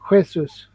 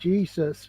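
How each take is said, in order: First: The word begins with an H sound. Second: The word begins with a J sound.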